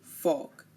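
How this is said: The R after the vowel is silent. "in British English, they say folk"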